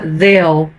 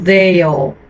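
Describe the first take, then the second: First: It sounds as in connected, running speech. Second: It sounds like a careful word said alone. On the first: The speaker calls it right. "no contexto vai ficar they'll" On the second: The speaker calls it wrong. "e não they'll"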